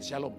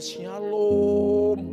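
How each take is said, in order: First: The greeting is said in a cold, flat tone. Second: The greeting is said in a warm, friendly tone. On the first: The greeter is insincere. The speaker calls it wrong. "Tapi kalau yang tidak baik" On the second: The greeter is sincere and kind. The speaker calls it right. "Kalau orang baik nadanya"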